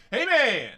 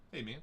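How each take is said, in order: First: High, loud, stretched-out call; playful drawn-out shout; hollered greeting. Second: Said in the usual way. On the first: Pretend. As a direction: holler it across the room. Hollered greeting to chat member.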